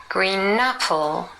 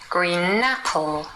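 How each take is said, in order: First: The n runs into apple, like napple. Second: The same.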